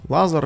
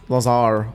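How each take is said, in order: First: The second vowel is short. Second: The second vowel is drawn out long. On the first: The speaker calls it right. "It's pronounced" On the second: The speaker calls it wrong. "Lazar with double A"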